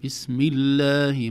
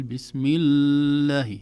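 First: الله with a short doubled lam, slow and louder; بسم الله, lam held briefly; correct doubled lam. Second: الله with the lam dragged too long, slow and louder; بسم الله with an overheld lam; overlong doubled lam. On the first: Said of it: "لا نطيل زمن الشدة". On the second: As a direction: show the mistake, drag the lam. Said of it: "ما نقول". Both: Shown as a demonstration.

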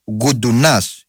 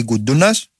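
First: "Γκουντουνάς" stressed on the final -νάς; stress on last syllable. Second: "Γκουντούνας" stressed on -ντού-; stress on middle syllable. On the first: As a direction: read the surname "Γκουντουνάς" with the accent at the end. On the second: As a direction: read the surname "Γκουντούνας" with the accent on the second-to-last syllable. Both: Real, not acted. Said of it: "Γκουντουνάς ή Γκουντούνας".

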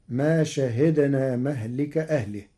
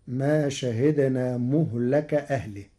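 First: مهلك with an "a" after the mim, "mahlik"; first reading of مهلك. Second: مهلك with u on mim, a on lam; Warsh reading. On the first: Teacher quotes the verse before Warsh's change, مهلك as mahlik. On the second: Teacher shows Warsh's reading, مهلك said muhlaka. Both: Shown as a demonstration. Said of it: "بضم الميم وفتح اللام".

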